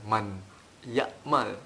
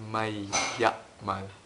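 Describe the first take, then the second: First: The n sound is clearly pronounced before ya'mal. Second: The n sound merges into a doubled y sound. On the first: The speaker calls it wrong. "bukan man ya'mal" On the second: The speaker calls it right. "tapi may ya'mal"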